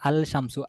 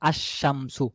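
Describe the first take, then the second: First: The l sound is pronounced before shamsu. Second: The l merges into a doubled sh sound. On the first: The speaker calls it wrong. "আল শামসু হওয়ার কথা ছিল" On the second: The speaker calls it right. "কিন্তু এখানে হবে আশ শামসু। তাহলে লামটা এখানে উচ্চারণে আসতেছে না।"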